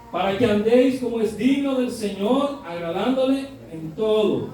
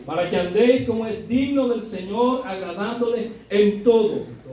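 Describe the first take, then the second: No difference in how they are said.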